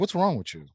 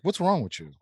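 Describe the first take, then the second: First: It is said in an angry, hostile tone. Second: The same.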